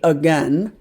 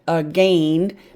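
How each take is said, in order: First: The second syllable has a short E sound. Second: The second syllable has a long A sound. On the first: "but we say again" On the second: "this looks like gain. Long A, silent I"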